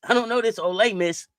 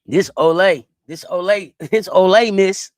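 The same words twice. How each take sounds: First: Said in the usual way. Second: Ole stretched and drawn out as oh-lay, loud and laughing; mock drawl of Ole. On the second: Shown as a demonstration. Streamer mocking a school name, loud drawled oh-lay. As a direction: say Ole Miss as oh-lay Miss, hammed up.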